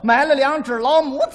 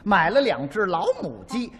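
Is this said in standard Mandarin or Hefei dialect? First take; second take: Hefei dialect; standard Mandarin. First: It is said in a Hefei dialect accent. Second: It is said in standard Mandarin.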